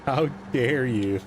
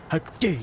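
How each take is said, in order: First: Slow, higher mock indignant scolding; hammed-up theatrical outrage. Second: Much higher, tearful-indignant how dare you; imitating Greta's outraged speech; Greta Thunberg impression. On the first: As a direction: drag out a fake-offended how dare you. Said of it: "best Greta Thunberg voice". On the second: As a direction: do Greta scolding the world leaders. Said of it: "in your best, best Greta Thunberg voice".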